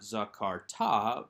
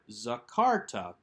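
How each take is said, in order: First: The stress is on the last syllable. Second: The stress is on the second syllable. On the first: The speaker calls it wrong. "not strong or emphatic enough to draw the accent to itself, so it's not zakarta" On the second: The speaker calls it right. "with that accent on the second syllable"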